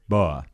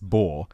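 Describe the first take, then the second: First: The word is said with a British pronunciation. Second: The word is said with an American pronunciation. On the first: "British, it's Boer" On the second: "if you're American, it's Boer"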